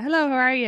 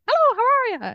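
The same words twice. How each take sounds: First: It is said in a natural Irish accent. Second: It is said in an exaggerated, mimicked Irish accent.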